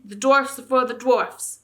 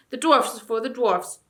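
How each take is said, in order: First: Loud, slow defiant dwarf motto; a dwarf taunts the boy with the motto; jeering dwarf. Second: Loud, defiant dwarf motto; a dwarf spits out the motto; sneering dwarf. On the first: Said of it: "the dwarfs jeered back at Eustace". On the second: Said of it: "sneered the dwarf". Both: A narrator's reading.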